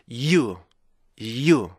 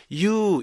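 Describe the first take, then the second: First: You launched from a short 'it' stop, yi-u; 올바른 you 발음. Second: You as a plain long yoo; 잘못된 you 발음. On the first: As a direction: start you with a held y. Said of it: "이렇게 하셔야 되는데". (앞에 스탑을 넣은 you) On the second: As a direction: glide through you with no stop at the front. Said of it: "이렇게 읽으면 안 되고요". (스탑 없이 읽은 you) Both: Shown as a demonstration.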